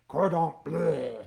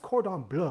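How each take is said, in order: First: Bleu is said like a retching bleh. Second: Bleu is said in the ordinary way. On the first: The speaker calls it right. "So you say cordon bleu. Bleh" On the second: The speaker calls it wrong. "you're not pronouncing it correctly"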